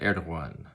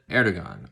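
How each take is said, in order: First: The middle consonant is a soft glide, not g. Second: The middle consonant is a hard g sound. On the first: The speaker calls it right. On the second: The speaker calls it wrong.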